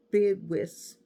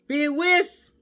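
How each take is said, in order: First: Said in the usual way. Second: Excited. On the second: Real, not acted. Card fan naming her favorite game, excited shout. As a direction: Bid Whist shouted high and loud. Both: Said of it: "I got excited".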